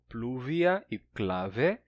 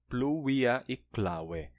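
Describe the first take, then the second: First: The words use the later Latin pronunciation. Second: The words use the older Latin pronunciation. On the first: "num latim mais tardio, são pronunciadas como" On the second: "num latim mais antigo"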